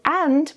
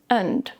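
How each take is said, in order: First: Full open vowel with a clear final d. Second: The vowel is softer and weaker. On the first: "a very open and clear a vowel and a very clear d" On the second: "the vowel sound becomes softer and weaker"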